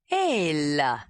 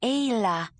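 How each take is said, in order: First: "Ayla" with the first syllable rising and the second dropping; string "Ayla" together smoothly, first part up, second part down; Jondalar's approximation of "Ayla"; his version of her name. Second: Lightly voiced "Ayla", a touch higher, clipped; strange clipped accent. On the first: Acted. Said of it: "first syllable rose and the second dropped". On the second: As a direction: say "Ayla" with two short clipped parts, swallowed back in the throat. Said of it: "She had a strange accent".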